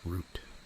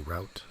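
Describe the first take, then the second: First: The vowel sounds like the one in boot. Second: The vowel sounds like the one in out. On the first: "like a root from a plant or a tree" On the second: "I sometimes say route"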